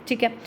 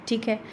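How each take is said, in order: Both takes have the same delivery.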